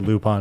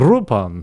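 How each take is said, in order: First: The name begins with an L sound. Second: The name begins with an R sound. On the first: This is how it sounds in the English dubs. "so I say Lupin" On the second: This is how it sounds in Japanese. "the Japanese, because they love to switch their L's and their R's"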